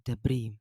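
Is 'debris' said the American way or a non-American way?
American. It is said in an American accent.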